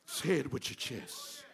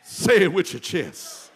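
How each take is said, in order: First: Much softer and lower, almost to himself; quiet echo. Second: Loud, full-chested command. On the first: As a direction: drop it to a hush after the shout. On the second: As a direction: belt it from the chest. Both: Shown as a demonstration.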